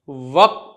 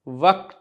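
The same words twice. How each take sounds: First: It has a deep back k sound. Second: It has a plain k sound. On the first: The speaker calls it right. "काफ के साथ है" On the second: The speaker calls it wrong. "का के साथ नहीं है"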